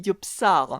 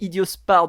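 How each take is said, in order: First: The middle cluster is said as p then s. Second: The middle cluster is said as s then p. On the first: The speaker calls it right. "c'est idiops, idiopsar" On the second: The speaker calls it wrong. "J'ai dit idiospar depuis le début, mais non"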